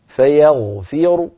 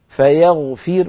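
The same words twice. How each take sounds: First: The final r is heavy, with a faint vowel. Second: The final r is light, with no vowel. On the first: "فأقف بضمة براء مفخمة هكذا" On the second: "لو وقفت عليه بالسكون أقول فيغفر"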